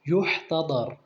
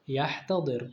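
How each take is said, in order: First: The first vowel is a 'u' sound. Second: The first vowel is an 'a' sound. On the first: The person is in the throes of death. The speaker calls it right. "نقول يحتضر بالضم" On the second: The person brings on their own death. The speaker calls it wrong. "ولا نقول يحتضر بالفتح"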